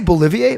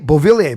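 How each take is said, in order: First: The name is said with an L sound. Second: The name is said with a V sound. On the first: The speaker calls it wrong. "Did I say Bolivier?" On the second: The speaker calls it right. "I know it's Beauvillier"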